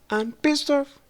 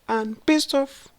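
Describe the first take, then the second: No difference in how they are said.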